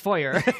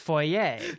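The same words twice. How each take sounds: First: The word is said with an American-style pronunciation. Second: The word is said with a French-style pronunciation. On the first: "as a cold-blooded American German, it's foyer" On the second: "the French way to say it is foyer"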